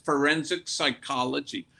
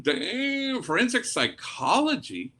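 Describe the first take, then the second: First: Said in the usual way. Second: Damn jumps much higher, then forensic psychology asked in disbelief; retold surprised question, pitched up. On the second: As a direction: act amazed at the daughter's answer. Daughter answers, priest reacts surprised.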